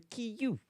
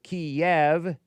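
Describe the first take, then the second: First: The final V sound is soft. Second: The final V sound is hard. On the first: This is the Ukrainian form of the name. "in uh, Ukrainian with the softer V sound" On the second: This is the Russian form of the name. "Instead of Kiev in Russian"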